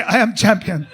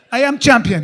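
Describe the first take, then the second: First: Put-on laughing Middle Eastern accent boast; bragging accent. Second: Put-on loud, laughing Middle Eastern accent boast; bragging accent. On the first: Quoting Tawfiq again, he boasts in a Middle Eastern accent. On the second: Quoting his friend Tawfiq, he booms a Middle Eastern accent boast. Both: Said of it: "He used to say".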